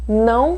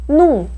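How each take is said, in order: First: It is said as the full nasal form não. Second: It is said as the reduced form num. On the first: "não ou num" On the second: "não ou num"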